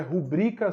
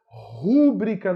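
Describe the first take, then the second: First: Rubrica stressed on the middle syllable; ru-BRI-ca, middle syllable strong. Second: Rúbrica drawn out on the first syllable; RÚ-bri-ca, first syllable strong; stress on RU. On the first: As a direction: put the weight on BRI in rubrica. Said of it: "a palavra é rubrica sem acento". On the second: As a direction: lean slowly on RÚ in rúbrica. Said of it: "rúbrica não existe". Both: Shown as a demonstration.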